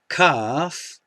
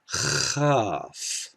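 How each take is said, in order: First: The first sound fully blocks the air. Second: The first sound is a gravelly continuous hiss.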